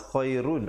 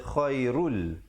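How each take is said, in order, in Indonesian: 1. Kata ini berakhir dengan bunyi n. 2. Kata ini berakhir dengan bunyi l. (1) "Jangan uh, khairun" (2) "tapi di situ kena baca khairul"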